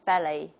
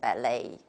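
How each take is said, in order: First: The stress is on the first syllable. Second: The stress is on the second syllable. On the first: "the stress is on the first syllable" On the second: "the opposite"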